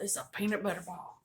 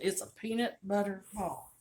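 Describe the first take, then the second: First: It is said in her plain everyday accent. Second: It is said in a strong Southern accent.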